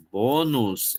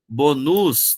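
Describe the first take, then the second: First: Bônus slowly, stress on BÔ; slow bônus, paroxytone; correct stress, slow. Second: Bonus stressed at the end, bo-NUS; wrong stress. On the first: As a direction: stretch out bônus with a closed ô up front. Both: Shown as a demonstration. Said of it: "não, bônus".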